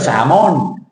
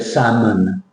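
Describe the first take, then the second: First: The second vowel is a full 'on' sound. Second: The second vowel is a swallowed 'mun' sound. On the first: The speaker calls it wrong. "You don't go salmon" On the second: The speaker calls it right. "The O in salmon is what we call swallowed"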